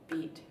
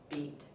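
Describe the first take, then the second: Both takes have the same delivery.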